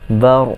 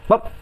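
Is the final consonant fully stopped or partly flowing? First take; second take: partly flowing; fully stopped. First: The final consonant lets the sound flow partly. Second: The final consonant stops the sound completely. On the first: The speaker calls it right. "Dia pertengahan. Dia dia bukan syiddah" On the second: The speaker calls it wrong. "syiddah tu salah"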